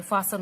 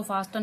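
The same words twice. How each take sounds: First: फासन with s straight into n, no t; silent T. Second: फास्टन with a sounded t after the s; T pronounced. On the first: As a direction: leave the t out of फासन. (फासन, बीच का 'ट' चुप) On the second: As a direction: put an audible t in the middle of फास्टन. (फास्टन, बीच में 'ट' बोलकर) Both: Shown as a demonstration. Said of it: "इसको फास्टन नहीं बोलेंगे".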